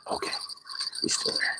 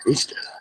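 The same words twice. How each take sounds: First: Whispered check. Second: Said in the usual way. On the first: Real, not acted. Quietly checking on the fish.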